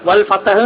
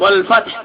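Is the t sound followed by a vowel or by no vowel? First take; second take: vowel; no vowel. First: The t sound is followed by a vowel. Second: The t sound has no vowel after it. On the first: The speaker calls it wrong. "എന്ന് ഓതരുത്" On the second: The speaker calls it right. "താഇന് സുക്കൂനാണ്"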